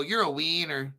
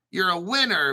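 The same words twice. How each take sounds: First: "wiener" with a long ee, Latin American accent; winner said as wiener. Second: Said in the usual way. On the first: Shown as a demonstration. Host showing viewers the Mexico way, "wiener" with long ee. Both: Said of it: "but if you're in Mexico".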